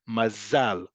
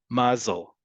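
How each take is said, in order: First: The stress is on the last syllable. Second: The stress is on the first syllable. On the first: "In modern Hebrew, the default pronunciation is always on the last syllable"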